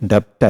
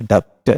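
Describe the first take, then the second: First: A b or p sound comes before the t. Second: A b or p sound comes before the t.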